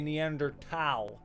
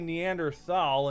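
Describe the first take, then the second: First: The last syllable starts with a plain t sound. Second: The last syllable starts with a th sound. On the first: "others say" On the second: "Some people say"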